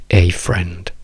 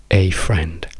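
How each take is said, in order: Both takes have the same delivery.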